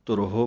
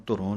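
First: ਧੁਰਹੋ read with the ਹ sounded before ਹੋ; correct reading. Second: ਧੁਰੋਂ run together, nasal end, no ਹ; wrong reading demo. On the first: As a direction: say ਧੁਰਹੋ with its ਹ, not ਧੁਰੋਂ. (ਧੁਰਹੋ, ਹ ਸਾਫ਼ ਬੋਲ ਕੇ) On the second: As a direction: demo the mistake ਧੁਰੋਂ, swallowing the ਹ. (ਗ਼ਲਤ ਉਚਾਰਣ ਧੁਰੋਂ) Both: Shown as a demonstration. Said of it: "ਇਹਨੂੰ ਧੁਰੋਂ ਨਹੀਂ ਕਹਿਣਾ".

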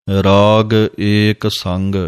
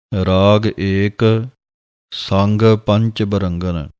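First: Sung, ਰਾਗ ਏਕ ਸੰਗ said slowly, with the pause after ਸੰਗ; sung, hold a pause at ਸੰਗ; pause after sang. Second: Slow, with the pause wrongly after ਏਕ. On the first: Sung, teacher marks the correct pause for students. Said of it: "ਇੱਥੇ ਵਿਸਰਾਮ ਹੈ". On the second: Teacher shows students the wrong pause after ਏਕ. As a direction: break the line at ਏਕ, the mistaken way. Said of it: "ਕਈ ਵਿਸਰਾਮ ਲਾਉਂਦੇ ਹਨ ਏਕ ਦੇ ਉੱਤੇ". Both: Shown as a demonstration.

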